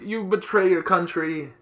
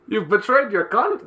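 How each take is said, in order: First: It is said in his normal accent. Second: It is said in a put-on Russian accent.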